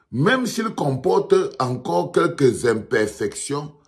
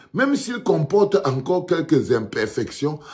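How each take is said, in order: The two takes are said the same way.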